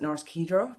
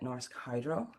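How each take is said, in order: First: The name is pronounced the Norwegian way. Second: The name is pronounced the English way. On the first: "that's how they pronounce it in Norway" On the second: "as we would pronounce it here"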